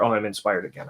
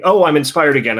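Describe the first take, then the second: First: Softer, deflated repeat of the eureka; weary mock inspiration. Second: Bright, louder, higher burst of fake inspiration; student to teacher, a hammed-up eureka, higher and louder; mock inspired exclamation. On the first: A letdown echo of the first cry. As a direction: months later, the same student's tired, quieter inspiration. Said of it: "and then two months later". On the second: Playfully overdone excitement. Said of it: "without just waiting".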